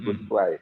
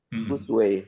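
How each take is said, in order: First: The last syllable sounds like English 'why'. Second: The last syllable sounds like English 'way'. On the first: The owner of the name says it this way. The speaker calls it right. "bukan Gus Y" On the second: Other people say the name this way. The speaker calls it wrong. "pronunciation-nya juga berubah menjadi Gus Way"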